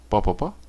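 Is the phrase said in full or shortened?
shortened. Each word is shortened to the same syllable.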